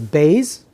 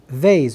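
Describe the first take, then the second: First: It begins with a hard B sound. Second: It begins with a soft V sound. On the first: "So Bays is the harsh pronunciation" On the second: "Vase is the light pronunciation"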